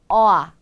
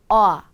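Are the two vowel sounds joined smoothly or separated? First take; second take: joined; joined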